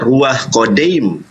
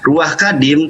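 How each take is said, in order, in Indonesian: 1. Kata kedua diucapkan dengan vokal 'o'. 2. Kata kedua diucapkan dengan vokal 'a'. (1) "Bisa juga dibaca Ruah Kodim" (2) "Ruah Kadim atau bisa juga dibaca"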